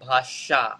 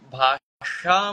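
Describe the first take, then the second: First: The middle consonant is an 's' sound. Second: The middle consonant is a 'sh' sound. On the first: The speaker calls it wrong. "It's not भाषा" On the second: The speaker calls it right. "आता मी भाषा म्हटलं पाहिजे"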